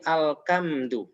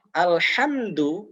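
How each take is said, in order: First: The middle consonant is a k. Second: The middle consonant is a breathy h. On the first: All suffering. The speaker calls it wrong. "mengubahnya menjadi kaf" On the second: All praise. The speaker calls it right. "Alhamdu menjadi alkamdu"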